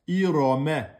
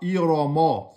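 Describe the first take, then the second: First: The m syllable is thin and light. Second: The m syllable is heavy and full. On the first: The speaker calls it right. "C'est mais, aminci" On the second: The speaker calls it wrong. "Ne dites pas ira, ma. C'est pas ma"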